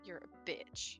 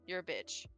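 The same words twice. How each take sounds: First: It is said with lively, expressive feeling. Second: It is said flat and lifeless. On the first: "Oh, that's feeling" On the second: "Like that just seems lifeless and flat"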